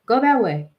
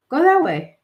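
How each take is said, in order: First: Said in the usual way. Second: Higher urging. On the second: Retold or imitated.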